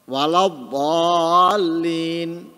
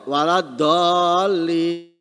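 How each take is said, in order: First: The d sound is heavy and emphatic. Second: The d sound is light and plain. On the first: The speaker calls it right. "Atau dob" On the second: The speaker calls it wrong. "diganti dengan bo"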